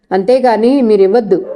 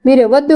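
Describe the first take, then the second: First: A touch of wounded pride, understated; indignant. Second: Higher, insistent refusal; indignant again, pitched higher. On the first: Shanti refuses Srinivas paying her debt, mildly indignant. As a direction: bristle lightly at the offer. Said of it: "రోషంగా అంది శాంతి". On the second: Shanti repeats her refusal to Srinivas, higher and insistent. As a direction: push back harder, voice up. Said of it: "అంది మళ్ళీ శాంతి". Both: A narrator's reading.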